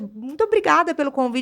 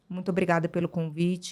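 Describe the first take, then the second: First: It is said expressively, sounding genuinely happy. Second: It is said flatly, without showing any happiness. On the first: The delivery matches the gratitude the words express. The speaker calls it right. "E é diferente de eu chegar aqui e falar" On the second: The words claim gratitude but the delivery does not show it. The speaker calls it wrong. "Você percebeu que eu estou feliz, que eu estou satisfeita de estar aqui? De jeito nenhum"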